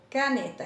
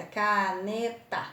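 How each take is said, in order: First: Said in the usual way. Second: CA - NE - TA, slow, even beats; teacher sounding out CA-NE-TA; split into syllables. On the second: Shown as a demonstration. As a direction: say caneta in three slow pieces, CA, NE, TA. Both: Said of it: "Tem três pedacinhos".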